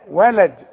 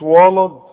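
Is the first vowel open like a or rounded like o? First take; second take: open a; rounded o. First: The first vowel is an open a. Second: The first vowel is rounded like o. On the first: The speaker calls it right. "الواو دائما وا" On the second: The speaker calls it wrong. "مش ولد"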